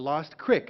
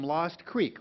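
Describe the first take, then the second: First: The name is said the way locals said it. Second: The name is said in the standard way.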